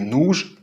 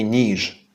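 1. Це округлий звук «у». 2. Це неокруглий звук «і». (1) "Чому Паша каже ... «нуж»" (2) "а не ... «ніж»"

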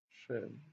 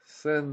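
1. Ім'я починається зі звуку 'sh'. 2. Ім'я починається зі звуку 's'. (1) "Шен, мабуть" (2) "А не Сен"

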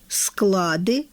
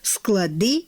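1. Наголос падає на перший склад. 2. Наголос падає на другий склад. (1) "має постійний нерухомий наголос на першому голосному, зокрема в множині склади" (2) "у формах множини має наголошене закінчення – склади"

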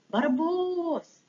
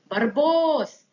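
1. Ім'я кличуть дуже тихо. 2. Ім'я кличуть голосно. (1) "Тихенько пукаємо" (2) "Спочатку голосно, тому що він далеко"

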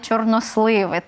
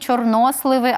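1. Наголос падає не на сполучне О. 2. Наголос падає на сполучне О. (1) "а не" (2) "І завжди наголос буде на О"

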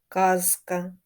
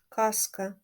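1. Звук z перед k залишається дзвінким. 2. Звук z перед k глухий. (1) "Вони вимовляються чітко" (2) "дзвінки приголосні перед глухими вимовляються як глухі"

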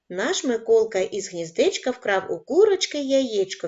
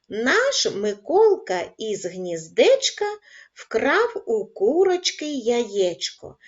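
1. Рядок читається найшвидшим темпом. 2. Рядок читається спокійним, повільним темпом. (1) "Кожного разу будемо пришвидшувати темп" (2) "Читаємо спокійно разом зі мною"

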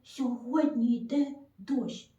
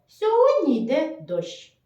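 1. Це сказано дуже м'яко і тихо. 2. Це сказано простим, нейтральним голосом. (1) "Дуже тихенечко, тихенечко" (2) "Нам треба сказати просто"

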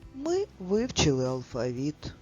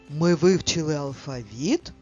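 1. Речення вимовлено сумно. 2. Речення вимовлено здивовано. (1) "А тепер сумно" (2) "Прочитаємо речення із здивуванням"

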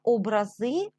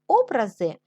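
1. Наголос на останньому складі. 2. Наголос на першому складі. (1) "це те ж саме, що ікони" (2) "вони можуть бути створені художниками"

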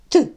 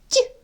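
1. Приголосний вимовляється твердо, без пом'якшення. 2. Приголосний вимовляється м'яко, з пом'якшенням.

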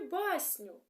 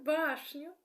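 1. Середній приголосний — це звук s. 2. Середній приголосний — це звук sh. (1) "Я буду погано вимовляти деякі звуки" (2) "Так"

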